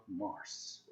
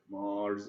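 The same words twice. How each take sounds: First: "Mars" ending in a hard s, like Arabic مارس; quiet, slow "Mars" with a final s instead of z; wrong Mars. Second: "Mars" ending in a voiced z sound, marz; "Mars" pronounced the English way, with a final z; correct English Mars. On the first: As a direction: say "Mars" as mars with a sharp s, the mistake to avoid. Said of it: "it's not Mars". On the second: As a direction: say "Mars" with a buzzing z at the end, not an s. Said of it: "مش هنقول مارس كما هي العادة". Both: Shown as a demonstration.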